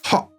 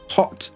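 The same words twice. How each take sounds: First: The final t is a glottal catch. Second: The final t is fully released. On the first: "this t becomes uh, the glottal stop" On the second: "you could pronounce it with the t"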